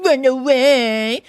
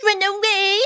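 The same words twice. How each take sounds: First: Louder, slow, firm command; curt sergeant. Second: High, slow mimicking retort; indignant washerwoman. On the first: Sergeant dismissing the washerwoman, curt. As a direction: shoo her off with force. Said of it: "said to me very short". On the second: Mole echoing the sergeant's order, indignant. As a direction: throw the order back in high mock outrage. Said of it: "says I". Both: A narrator's reading.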